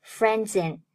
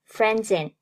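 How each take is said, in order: The two takes are said the same way.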